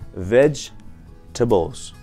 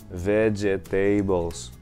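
First: The word is squeezed into fewer syllables. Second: Every syllable of the word is pronounced. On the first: The speaker calls it right. "в двух слогах" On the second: The speaker calls it wrong. "говорится как"

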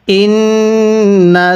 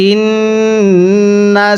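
Both takes have the same delivery.

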